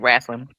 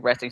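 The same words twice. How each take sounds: First: The word has a folksy, drawled regional pronunciation. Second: The word has its standard pronunciation. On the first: The speaker calls it right. "that's how you say it" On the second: The speaker calls it wrong. "You don't say wrestling"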